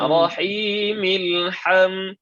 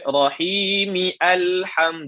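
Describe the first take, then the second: First: The final m runs straight into the l sound. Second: The next word starts separately with its own vowel. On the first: The speaker calls it right. "Maka rahimil" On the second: The speaker calls it wrong. "Jangan kita baca rahimi alham, jangan"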